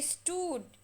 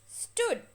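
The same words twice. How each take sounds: First: The vowel is a long oo sound. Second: The vowel is a short oo sound. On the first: The speaker calls it wrong. "I don't say stood" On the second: The speaker calls it right. "It's just stood. It's the short O sound"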